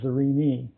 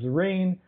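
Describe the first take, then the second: First: The final E is sounded as an extra syllable. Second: The final E is silent, rhyming with serene. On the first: This is how scientists say the name. "in scientific circles, the final E is pronounced" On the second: This is how ordinary people say the name. "out on the street, people don't do it that way. They pronounce it"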